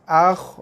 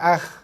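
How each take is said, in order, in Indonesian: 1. Bunyi kh sedikit dibulatkan. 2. Bunyi kh dilebarkan, tidak dibulatkan. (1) "Saya kata bulatkan sikit"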